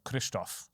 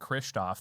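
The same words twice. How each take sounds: First: The name is said with a Czech pronunciation. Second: The name is said with an American pronunciation. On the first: "if you want to pronounce it in the Czech way" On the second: "That's the American pronunciation"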